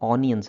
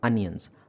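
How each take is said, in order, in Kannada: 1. ಮೊದಲ ಸ್ವರ ಉದ್ದವಾದ 'ah'. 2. ಮೊದಲ ಸ್ವರ ಸಣ್ಣ 'uh'. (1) "ಆನಿಯನ್ಸ್ ಅಲ್ಲ" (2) "ಮಾಡರ್ನ್ ಆಗಿ ಅದನ್ನು ಅನಿಯನ್ಸ್ ಅಂತ ಹೇಳ್ತಾರೆ"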